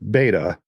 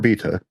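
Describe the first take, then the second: First: The word has an American pronunciation. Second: The word has a British pronunciation.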